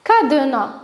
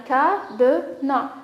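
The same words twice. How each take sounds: First: Said in the usual way. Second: "cadenas" slowly as ca, de, nas; split into syllables. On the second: Shown as a demonstration. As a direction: separate the three beats of "cadenas". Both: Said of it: "les syllabes qu'on va choisir".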